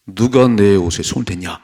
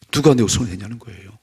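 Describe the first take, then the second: First: Firm, raised-voice challenge; loud demanding question. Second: Said in the usual way. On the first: Acted. Jesus asking who touched his clothes, loud demand. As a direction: demand to know who did it.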